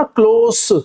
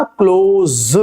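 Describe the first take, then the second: First: क्लोज ending on a sharp s sound, the adjective; adjective pronunciation. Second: क्लोज ending on a voiced z sound, the verb; verb pronunciation. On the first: Teacher shows the near reading of क्लोज with an s. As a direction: say क्लोज with a hissed s at the end, meaning near. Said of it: "लेकिन अगर आपने इसे स पढ़ा ना क्लोज". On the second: Teacher shows the verb reading of क्लोज with a z. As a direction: say क्लोज with a buzzing z at the end, like shut. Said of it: "अगर आपने इसे ऐसे पढ़ा ना क्लोज". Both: Shown as a demonstration.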